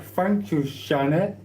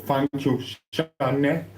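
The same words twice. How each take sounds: First: Thanks pitched way up, sweet and mocking; mock-sweet high thank you; high sing-song thanks. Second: Said in the usual way. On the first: Shown as a demonstration.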